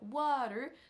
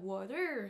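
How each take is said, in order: First: The stress is on the first syllable. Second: The stress is on the second syllable. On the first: The speaker calls it right. "au lieu de dire water" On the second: The speaker calls it wrong. "ça lui arrive par exemple de dire water"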